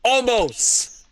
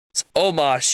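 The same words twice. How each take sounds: First: Mock Omos, higher, ending in a long "ohst"; Brock Lesnar. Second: Said in the usual way. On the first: Fan imitates the wrestler's weird way with the name, mock mispronunciation. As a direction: say Omos oddly, like "ol-MOHST". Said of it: "he pronounced his name weird". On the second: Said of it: "it's Omos, you".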